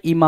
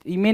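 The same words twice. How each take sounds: First: इमा said with an open a vowel, ee-mah; इमा with the vowel mah, like image; इमा pronounced ee-mah; correct sound. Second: इमे said with a clear e vowel, ee-meh; इमे with the vowel meh, not mah; इमे pronounced ee-meh; wrong sound. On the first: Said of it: "इमा होता है". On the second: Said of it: "इमे नहीं होता है". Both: Shown as a demonstration.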